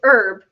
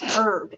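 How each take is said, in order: First: The word starts with a vowel, no H. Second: The word starts with an audible H sound. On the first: The speaker calls it right. "We know we don't pronounce that H" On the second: The speaker calls it wrong. "and my brain goes"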